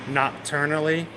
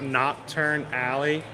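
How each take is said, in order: First: It is said quickly as one run-together word. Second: It is said slowly as two separate words.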